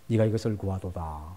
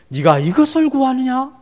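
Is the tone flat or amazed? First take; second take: flat; amazed. First: It is read in a flat, ordinary way. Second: It is said with amazement and deep emotion.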